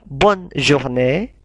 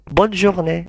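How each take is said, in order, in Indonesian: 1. Kedua kata itu diucapkan terpisah. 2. Kedua kata itu disambung menjadi satu. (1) "Kalau dipisah" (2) "kalau digabung"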